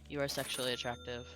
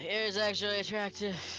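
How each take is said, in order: First: It is said flatly, with little energy. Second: It is said with more energy and force.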